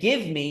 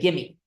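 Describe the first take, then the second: First: Both words are clearly pronounced as separate words. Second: The words run together with a sound dropped. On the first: "instead of saying give me" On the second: "you often don't enunciate certain phonemes"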